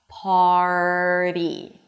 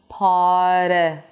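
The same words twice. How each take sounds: First: The R is held out before the flap. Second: The R is rushed straight into the flap. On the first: The speaker calls it right. "So hold out the R, make sure that you're actually pronouncing the R" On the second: The speaker calls it wrong. "the tongue doesn't have enough time for the R, so it goes immediately for the flap T"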